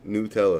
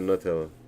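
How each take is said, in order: First: The first syllable sounds like 'new'. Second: The first syllable sounds like 'nut'. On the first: "It's gonna be N E W" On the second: "instead of"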